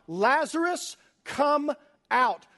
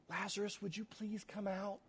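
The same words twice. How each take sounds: First: High, loud call into the tomb; commanding shout to the dead man. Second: Soft, meek asking, much quieter; hushed, too-polite plea; timid polite request. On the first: Acted. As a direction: cry it out with full authority. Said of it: "and he cries out". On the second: Shown as a demonstration. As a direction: ask him out politely, almost under your breath. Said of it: "this is not a whisper".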